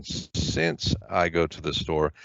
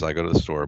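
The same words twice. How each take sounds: First: "since" leaned on, and the whole clause read slow and soft; stress on since. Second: Said in the usual way. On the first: Shown as a demonstration. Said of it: "add a subordinating conjunction". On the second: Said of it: "That actually says".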